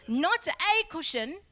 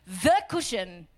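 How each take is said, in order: First: A said as a full "ay", drawn out; higher and slower, picking out "a"; stress on A. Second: THE set apart and drawn out before "cushion"; stress on THE. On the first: Preacher ruling out just any cushion, stress on A. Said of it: "not one of many". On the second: Preacher pointing out the exact scripture word, stress on THE. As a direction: lean slowly and firmly on "the". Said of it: "what the scriptures say". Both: Shown as a demonstration.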